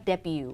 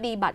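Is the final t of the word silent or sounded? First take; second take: silent; sounded. First: The word ends without any t sound. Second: The word ends with a clearly sounded t. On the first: The speaker calls it right. "คำนี้อ่านว่า" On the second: The speaker calls it wrong. "ที่ไม่อ่านว่าดีบัตนะไม่อ่านว่าดีบัต"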